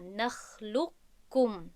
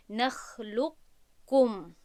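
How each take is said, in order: First: Slow «نخلقکم» with the qaf lost in a doubled kaf; complete merging. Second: Slow, louder «نخلقکم» with a trace of heavy qaf before kaf; partial merging. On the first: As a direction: go from lam straight into kaf in «نخلقکم». («نخلقکم» با ادغام کامل قاف در کاف) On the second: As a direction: raise the tongue after lam, then pass to kaf in «نخلقکم». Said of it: "استعلای قاف رو تلفظ کنیم". («نخلقکم» با ادغام ناقص و استعلای قاف) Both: Shown as a demonstration.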